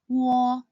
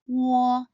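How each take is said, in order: The two takes are said the same way.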